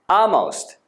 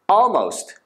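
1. Lの音は完全に抜けます。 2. Lの音はうっすら入ります。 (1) "L を全く言わないバージョン。" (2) "L をちょんみり言うバージョン。"

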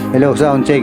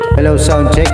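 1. Tuyo ang boses, walang echo. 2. May dagdag na echo effect ang boses. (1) "Walang echo yan" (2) "lalagyan natin ng echo"

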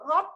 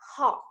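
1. Âm h cứng, không có hơi. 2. Âm h nhẹ, có một luồng hơi bật ra. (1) "Hot là không có hơi" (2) "Thế bây giờ mình ra hơi này"

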